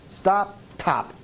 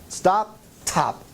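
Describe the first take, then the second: No difference in how they are said.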